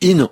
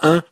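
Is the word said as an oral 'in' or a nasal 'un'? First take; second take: oral in; nasal un. First: It is said as an oral 'in' sound. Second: It is said as a nasal 'un' sound. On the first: The speaker calls it right. "on dit « in »" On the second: The speaker calls it wrong. "on dit pas « un »"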